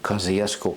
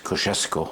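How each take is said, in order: First: It uses the local everyday pronunciation. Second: It uses the original, true pronunciation.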